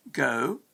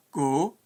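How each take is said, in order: First: "go" with a gliding OH-oo vowel; English diphthong. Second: "go" with one pure long O; Scottish monophthong. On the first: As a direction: glide the vowel of "go", English-style. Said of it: "with a diphthong". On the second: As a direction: hold "go" on a single vowel, Scottish-style. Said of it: "with a monophthong". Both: Shown as a demonstration.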